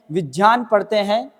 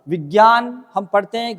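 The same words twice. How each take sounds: First: विज्ञान read the right way, "vi-dyan"; correct pronunciation. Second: विज्ञान said as "vigyan", with a hard g; विज्ञान read the common wrong way, "vi-gyan"; wrong pronunciation. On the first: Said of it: "वो right पढ़ा जाता है". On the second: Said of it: "गलत पढ़ते हैं". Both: Shown as a demonstration.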